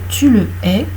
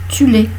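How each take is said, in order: First: The vowel after the l is clearly pronounced. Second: The vowel after the l is dropped. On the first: It means you hate him. "toujours prononcer devant un H aspiré" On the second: It means you are it. "si tu ne prononces pas le E de le, ça donne tu l'es"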